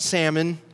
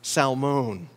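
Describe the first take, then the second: First: The name is said like the English fish word. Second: The name is said with a Hebrew-style pronunciation. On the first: The speaker calls it wrong. "Not Salmon" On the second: The speaker calls it right. "think Hebrew with me"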